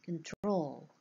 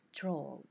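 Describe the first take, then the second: First: Said in the usual way. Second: Troll said alone as the stressed syllable of control. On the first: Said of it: "This is the second syllable". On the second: Shown as a demonstration. Teacher showing students the stressed syllable, stressed. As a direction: give troll its full stress, cut off from con. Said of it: "This is the second syllable. It is stressed".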